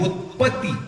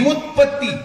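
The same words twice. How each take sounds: First: Said in the usual way. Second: व्युत्पत्ती said with the full vyu- onset, raised and stressed; व्युत्पत्ती पूर्ण उच्चार, जोर देऊन; corrected word. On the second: Shown as a demonstration. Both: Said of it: "उत्पत्ती नाही".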